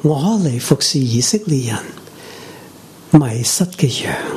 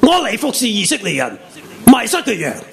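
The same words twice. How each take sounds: First: The sentence is spoken in a soft, gentle tone. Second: The sentence is spoken in a harsh, fierce tone. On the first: The listener feels kindly addressed, not rejected. "温柔的语气" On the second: The listener feels rejected and pushed away. "恶的语气"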